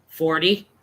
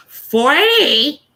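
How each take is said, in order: First: Low, subdued answer; reluctant admission. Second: High, loud, drawn-out disbelief; incredulous little kid. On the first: Adult admitting age to a kid, reluctant. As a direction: admit it low, with a slight questioning lift. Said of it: "I said, um". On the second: Little kid shocked at the adult's age, incredulous. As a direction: squeal it as an astonished kid's question. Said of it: "He goes". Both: Retold or imitated.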